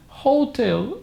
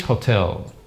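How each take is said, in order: First: "hotel" wrongly stressed as HO-tel, high and slow. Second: "hotel" stressed on the end, ho-TEL; correct HOTEL. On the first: Teacher showing what most people say, wrong HOTEL. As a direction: mispronounce "hotel" with front stress. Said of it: "Most people say hotel". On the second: Teacher giving students the pronunciation, correct HOTEL. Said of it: "the pronunciation is hotel". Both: Shown as a demonstration.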